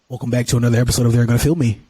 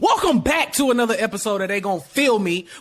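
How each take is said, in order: First: It is said with low energy. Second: It is said with high energy.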